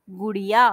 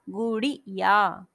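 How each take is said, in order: First: Said in the usual way. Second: गुड़िया spelled out slowly, each syllable apart. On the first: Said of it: "छोटी की मात्रा". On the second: Shown as a demonstration. Teacher sounding it out for pupils, very slowly. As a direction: break गुड़िया into slow syllables. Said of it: "एक मात्रा का समय लग रहा है".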